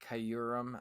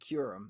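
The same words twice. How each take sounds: First: The first syllable is not said as 'kyoo'. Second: The first syllable is said as 'kyoo'. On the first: The speaker calls it wrong. "I love pronouncing it like that because I know it's kind of funny" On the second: The speaker calls it right. "it's pronounced like a K Y O O Rem"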